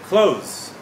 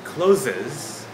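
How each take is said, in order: First: The word is said with one syllable. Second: The word is said with two syllables. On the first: The speaker calls it right. "you got it. You got it right" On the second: The speaker calls it wrong. "actually, it is not uh, the correct pronunciation by native speakers"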